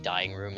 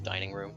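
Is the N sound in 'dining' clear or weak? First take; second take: weak; clear. First: The N in 'dining' is barely pronounced. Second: The N in 'dining' is pronounced clearly. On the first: The speaker calls it wrong. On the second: The speaker calls it right.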